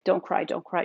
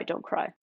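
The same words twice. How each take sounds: First: Said in the usual way. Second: Whispered self-talk. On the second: Retold or imitated. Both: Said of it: "being like".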